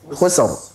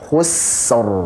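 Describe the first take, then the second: First: The s sound is cut off abruptly. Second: The s sound is held far too long. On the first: "jangan sampai membacanya khusr langsung" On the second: "Jangan juga terlalu panjang. ... Kepanjangan"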